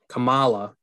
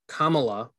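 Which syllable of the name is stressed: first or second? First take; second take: second; first. First: The stress falls on the second syllable. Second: The stress falls on the first syllable. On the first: It names the Ms. Marvel character. "Is Kamala Khan" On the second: It names the vice president. "It's how you pronounce the vice president's name"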